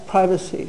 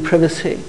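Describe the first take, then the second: First: The first vowel is long, as in 'eye'. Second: The first vowel is short, as in 'give'. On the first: "If you know the word private, it's not a big step to assume that's privacy" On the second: "more recently that they've represented it as being privacy"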